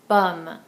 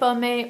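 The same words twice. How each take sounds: First: The final E is silent. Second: The final E is pronounced as a vowel. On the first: The speaker calls it right. "No accent aigu. We don't say the E" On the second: The speaker calls it wrong. "We don't say pomme"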